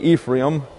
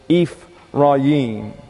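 First: The name is said with an anglicized pronunciation. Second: The name is said with a Hebrew-like pronunciation. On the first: This is the usual English way of saying it. The speaker calls it wrong. "We usually say Ephraim. That's sort of an anglicized pronunciation" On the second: This is the original way of saying it. The speaker calls it right. "but it's Ephraim"

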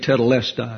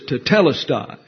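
First: The stress is on the next-to-last syllable. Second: The stress is not on the next-to-last syllable. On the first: The speaker calls it wrong. "We have a tendency to want to accent certain syllables in English. So we say tetelestai. It's always that next to the last syllable" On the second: The speaker calls it right. "But Greek throws accents all over the place"

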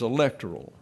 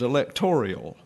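First: The word is said with four syllables. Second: The word is said with five syllables. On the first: The speaker calls it right. "The number one pronunciation of the word is electoral, and it has four sections to it" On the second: The speaker calls it wrong. "as if somehow an I got thrown into there"

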